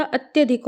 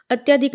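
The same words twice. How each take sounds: First: अत्यधिक with short "tya"; correct vowel demo. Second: अत्यधिक with long "tyaa"; wrong vowel demo. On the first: Teacher corrects it, अत्यधिक said as "at-ya-dhik". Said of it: "होता है". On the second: Teacher shows the mistake, अत्यधिक said as "at-yaa-dik". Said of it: "नहीं होता". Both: Shown as a demonstration.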